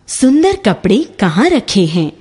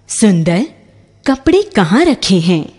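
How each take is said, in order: First: "सुंदर कपड़े" run together as one phrase, no break; no pause. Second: A clear break after "सुंदर", then "कपड़े कहाँ रखे हैं?" as the question; pause after सुंदर. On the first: Teacher contrasting the comma-free reading for students, said straight through. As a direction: ask "सुंदर कपड़े कहाँ रखे हैं?" in one smooth question. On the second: Teacher showing a comma's effect to students, pause after "सुंदर". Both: Shown as a demonstration. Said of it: "विराम चिन्ह".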